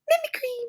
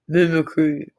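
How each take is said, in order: First: It is said in a very high-pitched voice. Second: It is said in a very deep voice.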